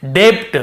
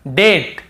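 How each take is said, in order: First: डेप्ट said with a b sound before the t; डेप्ट with the b pronounced; wrong way, b sounded. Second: डेट said with no b at all; डेट with a silent b. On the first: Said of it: "ये नहीं होता तो हम कैसे पढ़ते". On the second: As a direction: drop the b in डेट. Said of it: "हमें बी को नहीं पढ़ना है". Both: Shown as a demonstration.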